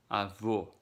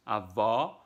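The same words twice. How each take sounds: First: Avô with a closed final O, avo. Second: Avó with an open final O, avɔ. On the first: Teacher showing grandpa versus grandma, closed O. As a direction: round the lips on the ô of avô. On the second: Teacher showing grandma versus grandpa, open O. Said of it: "way opened". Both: Shown as a demonstration.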